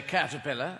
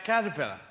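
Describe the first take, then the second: First: American "caterpillar", endings as Americans say them; American pronunciation. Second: Said in the usual way. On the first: Shown as a demonstration. British comic teasing an American audience, American accent. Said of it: "Like, you say caterpillar". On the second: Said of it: "and we say caterpillar".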